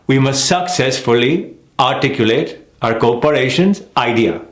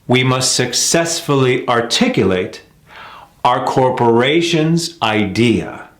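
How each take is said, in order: First: "We must successfully articulate our corporation's idea" rising on "corporations" then a dropped "idea"; contrasting rhythm. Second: "We must successfully articulate our corporation's idea" slow, lift on "corporations"; slow down, land on "corporations"; slow American rhythm. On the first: Teacher showing the contrasting rhythm of the sentence. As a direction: run it on, rise then clip the end. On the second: Teacher modelling the rhythm learners should hear. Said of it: "You hear that?". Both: Shown as a demonstration.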